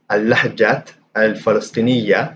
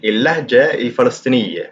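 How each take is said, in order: First: It starts with al and ends in ah. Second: It starts with il and ends in eh. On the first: This is the formal standard form. "in Fusha, it would be" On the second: This is the everyday spoken form. "in Ammiya, it would sound more like"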